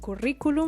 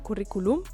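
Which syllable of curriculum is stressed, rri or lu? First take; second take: rri; lu. First: The stress falls on the rri syllable. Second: The stress falls on the lu syllable. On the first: The speaker calls it right. "it is pronounced curriculum, and so we have to put the tilde" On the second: The speaker calls it wrong. "otherwise the pronunciation is not correct, because we would have curriculum"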